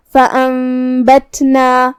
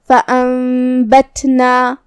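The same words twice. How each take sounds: First: فأنبتنا chanted slowly, ن turned into a humming m; iqlab with ghunna. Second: Slow فأنبتنا with a weak, airy release of ت; hams on ت. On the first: Teacher showing iqlab, long m hum in فأنبتنا. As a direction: hold a nasal m before the ب in فأنبتنا. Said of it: "میم میں بدل کے غنہ کے ساتھ". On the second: Teacher showing hams, weakened ت in chanted فأنبتنا. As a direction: let breath escape on the silent ت in فأنبتنا. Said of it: "حرف کی آواز ایسے کمزور ہو". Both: Shown as a demonstration.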